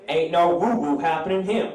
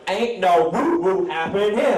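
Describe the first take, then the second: First: It is said with mild emphasis. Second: It is said with strong emphasis.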